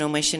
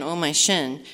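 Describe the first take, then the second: First: The phrase is said quickly, run together. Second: The phrase is said at a slower pace.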